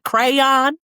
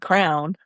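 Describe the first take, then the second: First: The word is said as cray-on, two syllables. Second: The word sounds like crown, one syllable. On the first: "No, it's a crayon" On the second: "I say crown"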